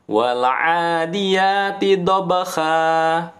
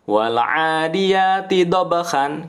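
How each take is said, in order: First: The last word ends on a plain long a. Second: The last word ends with an n sound. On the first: "dibacanya wal 'adiyati dhabha. Nah, n-nya diganti" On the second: "tanwin kan an dibacanya"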